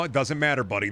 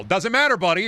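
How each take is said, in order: First: Said in the usual way. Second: Much higher, louder, fed-up yell; frustrated outburst at the game; exasperated shout. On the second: Real, not acted. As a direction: blow up in frustration. Blows up at himself over nectar.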